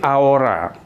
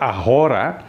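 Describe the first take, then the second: First: The h sound is left silent in the word. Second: The h sound is pronounced in the word. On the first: The speaker calls it right. "tapi ahora. ... H itu dalam bahasa Spanyol tidak diucapkan" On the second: The speaker calls it wrong. "jangan dibaca ahora"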